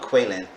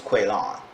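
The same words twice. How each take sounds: First: "Quaylon" with a weak, short last syllable, like "lin"; her pronunciation. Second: "Quaylon" with a full last syllable, "lon"; his pronunciation. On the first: Reviewer shows how she calls him, "Quaylon" ending in a short "lin". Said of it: "she keep calling him Quaylon". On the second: Reviewer shows how he says his name, "Quaylon" with a full "lon". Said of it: "he keeps saying his name is Quaylon". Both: Shown as a demonstration.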